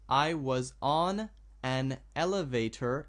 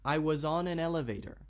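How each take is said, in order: First: The words are said slowly and separately. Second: The words are run smoothly together. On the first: "I'll read it slowly" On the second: "if I want to speak this naturally, I want to put these sounds together"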